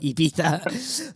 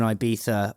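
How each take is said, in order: First: It is said in a posh, affected way. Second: It is said in an ordinary, plain way.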